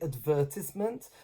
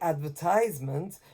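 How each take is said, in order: First: It uses the British English stress pattern. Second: It uses the American English stress pattern. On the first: "you've said it in British English" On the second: "you're saying it in American English"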